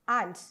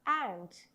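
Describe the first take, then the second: First: The first vowel is not a short a. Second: The first vowel is a short a. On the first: The speaker calls it wrong. "Don't pronounce it as ant" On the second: The speaker calls it right. "It is pronounced as ant"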